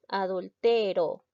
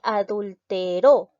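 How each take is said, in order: First: The stress is on the second-to-last syllable. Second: The stress is on the last syllable. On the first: "Vemos que es una palabra grave" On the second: "La mayor fuerza de voz recae en la última sílaba"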